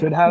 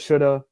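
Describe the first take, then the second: First: Both words are said fully and separately. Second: The words are merged into one reduced word.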